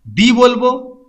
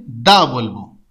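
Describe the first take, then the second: First: দি pronounced "dee"; long ee in দি. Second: দা pronounced "da". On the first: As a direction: say দি with a clear ee. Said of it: "vowel sound করবে যে শব্দটা". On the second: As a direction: say দা with an open ah. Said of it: "consonant হলে দা বলবো". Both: Shown as a demonstration.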